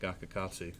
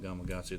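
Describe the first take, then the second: First: The second syllable is pronounced 'ka'. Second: The second syllable is pronounced 'ma'. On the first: Some people in the deep south say it this way. "they call it Gakakatsu" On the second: This is the usual name. "they don't call it Gamakatsu"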